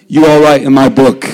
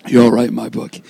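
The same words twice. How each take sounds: First: Said in the usual way. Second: Lower, softer, tender repeat; soft and warm. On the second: Shown as a demonstration. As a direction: say it again gently to the kids.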